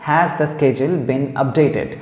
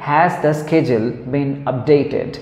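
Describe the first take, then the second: No difference in how they are said.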